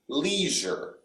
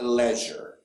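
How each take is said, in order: First: The first syllable is pronounced as lee. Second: The first syllable is not pronounced as lee. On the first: The speaker calls it right. "In American English, when we see this E I, we pronounce it lee" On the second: The speaker calls it wrong. "not leisure"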